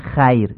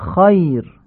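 First: The first vowel is a front, Persian-style a. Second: The first vowel is a short, back, open a. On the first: The speaker calls it wrong. "نمیگیم خیر" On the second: The speaker calls it right. "میگیم خایر"

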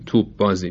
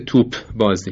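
First: The p is dropped and the b is doubled. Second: The p is pronounced separately before the b. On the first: The speaker calls it right. "همه میگن توپ بازی ... پ رو تلفظ نکردیم، به جاش ب رو مشدد تلفظ کردیم" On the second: The speaker calls it wrong. "معمولا کسی نمیگه توپ بازی"

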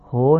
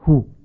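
First: The vowel is said the Persian way. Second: The vowel is a short Arabic u. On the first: The speaker calls it wrong. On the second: The speaker calls it right.

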